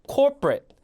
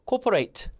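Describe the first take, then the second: First: The last syllable is weak and reduced. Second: The last syllable is said full and clear. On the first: The speaker calls it right. "강세를 코에 주고 P가 경음화 돼서 뿌가 되거든요. 그 다음에 이 음절은 강세가 없으니까 으로 죽어야 됩니다" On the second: The speaker calls it wrong. "대부분의 사람들이 이걸 보고 corporate, corporate, corporate 이런 식으로"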